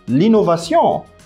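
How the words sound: The word is said with French sounds. The speaker calls it wrong. "c'est un mot qu'on a en français"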